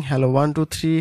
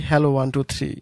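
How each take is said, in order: Both takes have the same delivery.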